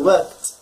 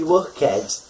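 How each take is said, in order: First: The ending is just a soft t sound. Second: The ending is said as a separate syllable. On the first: The speaker calls it right. "You say work and a t at the end, a soft T sound" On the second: The speaker calls it wrong. "you don't say worked. No, that's not correct"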